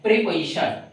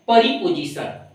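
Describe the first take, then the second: First: प्रीपोजिशन as "pre-pa-ishan", short vowel; correct pronunciation demo. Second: प्रीपोजिशन as "pari-po-jisan", round O; प्रीपोजिशन mispronounced with a full "oh"; common mispronunciation demo. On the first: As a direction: say प्रीपोजिशन with O reduced to "a". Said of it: "इसको बोलते हैं प्रीपोजिशन". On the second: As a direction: say प्रीपोजिशन with "po" and a hard j. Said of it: "बहुत सारे लोग बोलते हैं". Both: Shown as a demonstration.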